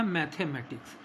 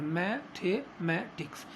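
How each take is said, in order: First: Said in the usual way. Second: मैथमेटिक्स slowly, broken into four separate syllables; चार syllable में उच्चारण. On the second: Shown as a demonstration. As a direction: split मैथमेटिक्स into four beats, mai-the-mai-tiks, slow. (मैथमेटिक्स को चार हिस्सों में धीरे-धीरे तोड़कर) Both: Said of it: "चार बार में उच्चारण इसका करते हैं".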